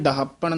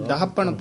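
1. ਇਹ ਸ਼ਬਦ ਜ਼ੋਰ ਨਾਲ ਬੋਲਿਆ ਜਾਂਦਾ ਹੈ। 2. ਇਹ ਸ਼ਬਦ ਨਰਮੀ ਅਤੇ ਹਲਕੇਪਨ ਨਾਲ ਬੋਲਿਆ ਜਾਂਦਾ ਹੈ। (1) "ਇਹ ਡਹਾਪਣ ਨਹੀਂ ਕਹਿਣਾ" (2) "ਇਹ ਡਹਾਪਣ ਪੋਲਾ ਹੀ ਬੋਲਣਾ ਹੈ"

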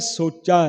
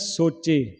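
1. ਇਹ ਸ਼ਬਦ ਲੰਬੀ 'aa' ਸਵਰ ਨਾਲ ਖ਼ਤਮ ਹੁੰਦਾ ਹੈ। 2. ਇਹ ਸ਼ਬਦ 'e' ਸਵਰ ਨਾਲ ਖ਼ਤਮ ਹੁੰਦਾ ਹੈ। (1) "ਉੱਥੇ ਲਿਖਿਆ ਸੋਚਾ ਹੈ" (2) "ਅਸੀਂ ਪੜ੍ਹਦੇ ਹਾਂ ਸੋਚੇ"

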